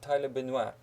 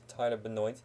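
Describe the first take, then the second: First: The surname is pronounced the French way. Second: The surname is pronounced the American way. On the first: This is how it would be said in France. "if you would go to France, you will probably have it pronounced" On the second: This is how the man himself says it. "he is American, so it is Tyler Benoit"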